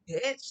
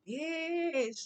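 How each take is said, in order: First: It sounds indignant and challenging. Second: It sounds eager, like about to share gossip. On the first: The speaker feels disrespected and is challenging someone. "like who you talking to" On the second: The speaker is about to share some news. "like let me go tell you something"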